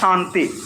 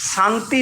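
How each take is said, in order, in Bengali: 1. এটি তালব্য 'sh' ধ্বনি দিয়ে শুরু হয়। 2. এটি দন্ত্য 's' ধ্বনি দিয়ে শুরু হয়। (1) "মনে রাখবো এটা হচ্ছে তালবস্য" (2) "এটা ডেন্টাল স"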